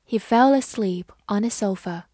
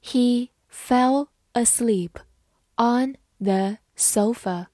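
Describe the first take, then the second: First: Said in the usual way. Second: Slow, phrase broken into separate words; measured teacher's pace with pauses; slow model reading. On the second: Shown as a demonstration. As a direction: read slowly for learners to follow. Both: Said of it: "慢慢来读".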